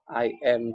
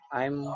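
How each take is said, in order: First: Two separate full words are said. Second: The words merge into one short syllable. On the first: "kalau baca biasa cuman I am gini aja" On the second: "bisa disingkat jadi"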